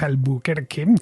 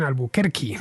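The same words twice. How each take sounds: First: The word ends with an 'eh' vowel. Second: The word ends with an 'ee' vowel.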